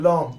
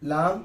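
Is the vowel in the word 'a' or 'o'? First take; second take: o; a. First: The vowel is a rounded 'o' sound. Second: The vowel is an open 'a' sound. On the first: This is the modern way of saying the letter name. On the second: This is the older way of saying the letter name.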